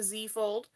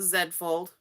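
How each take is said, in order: First: Z said as "zee", American way. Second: Z said as "zed", Canadian way. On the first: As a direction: say "Z" as the letter zee. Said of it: "If you're somewhere else". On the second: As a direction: say "Z" as the letter zed. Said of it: "We're in Canada". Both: Shown as a demonstration.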